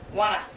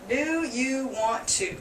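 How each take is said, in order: First: It is said fastest, as one reduced word. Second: Every word is said fully at normal speed. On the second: "That's the normal phrase"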